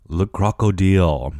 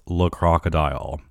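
First: "Le Crocodile" said the French way, ending kroko-DEEL; French pronunciation. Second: Said in the usual way. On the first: Shown as a demonstration. Vlogger naming the restaurant, French pronunciation. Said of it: "It's Le Crocodile". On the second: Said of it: "called Le Crocodile".

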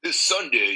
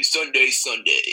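First: Monster truck voice. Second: Slow booming monster truck call. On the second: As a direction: stretch each Sunday, big and loud. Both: Shown as a demonstration. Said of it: "could you give us another example".

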